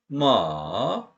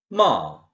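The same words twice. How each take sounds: First: The pitch dips low, then rises a little. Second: The pitch falls sharply from high. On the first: It means horse. "중간쯤에서 확 떨어졌다가 조금 더 올라가요" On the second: It means to scold. "높은 음정에서 확 떨어져요"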